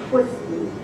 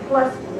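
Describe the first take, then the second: First: The name begins with a t then w sound. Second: The name begins with a t then l sound. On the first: This is the Polish pronunciation. "in Polish you say it like Twisty" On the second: This is how English speakers would say it. "as we would probably pronounce it"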